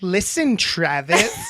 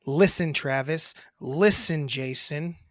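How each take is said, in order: First: A touch of bold swagger; bad bitch confidence. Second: A hint of snotty teenage sass; mock-sulky thirteen-year-old, lightly done; teen girl attitude. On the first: Shown as a demonstration. Brother showing sister a confident bad-bitch read. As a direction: say it like you own the room, lightly. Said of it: "That is a bad bitch". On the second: Brother mocking sister's delivery as a sulky teen girl. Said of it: "like a thirteen-year-old girl with attitude".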